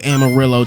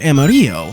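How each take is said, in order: First: It is pronounced with English sounds. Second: It is pronounced with Spanish sounds. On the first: The title names the city in Texas. "that is genuinely how the city in Texas is pronounced" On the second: The title is read as a Spanish word. "Given how both the authors are Spanish"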